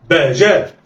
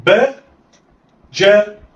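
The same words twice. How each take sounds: First: "باء جاء" joined in one quick go; snatch "باء جاء" without a gap; snatched together. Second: "باء" raised, pause, then "جاء"; letters sounded apart. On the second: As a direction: say "باء" and "جاء" as separate syllables. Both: Shown as a demonstration. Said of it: "دي طريقة الخطف".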